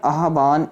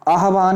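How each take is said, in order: First: आह्वान said "aa-ha-baan", three beats; correct pronunciation. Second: आह्वान said "ah-vaan", high; wrong pronunciation. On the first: Teacher corrects students, आह्वान as "aa-ha-baan". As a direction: open a vowel after h in आह्वान. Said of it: "इस प्रकार होता है". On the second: Teacher shows the error, आह्वान as high "ah-vaan". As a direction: join h and v in आह्वान. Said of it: "आह्वान नहीं होता". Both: Shown as a demonstration.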